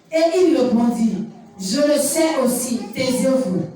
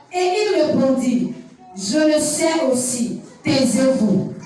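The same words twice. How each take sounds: The two takes are said the same way.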